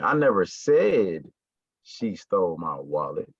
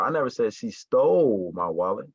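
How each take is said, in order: First: The stress falls on the word said. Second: The stress falls on the word stole. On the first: It was only hinted at, not said. "I may have alluded to it, I may have hinted towards it, but I never said it" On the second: She took it but did not steal it. "So it's like she didn't steal my wallet"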